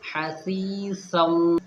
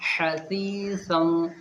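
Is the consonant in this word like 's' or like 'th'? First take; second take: th; th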